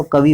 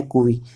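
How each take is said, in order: First: "कवि" said quickly with a short a; wrong-vowel example. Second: "कुवि" with ku in the first syllable; correct-vowel demonstration. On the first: Teacher showing the mistaken reading, quick ka pronunciation. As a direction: say "कवि" with ka in the first syllable. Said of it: "का होता तो कवि हो जाना था". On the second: Teacher correcting kavi, clear ku pronunciation. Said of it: "कवि नहीं है, यह है कुवि". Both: Shown as a demonstration.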